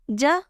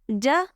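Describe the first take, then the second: First: The j is made with the tongue middle. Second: The j is made with the tongue middle.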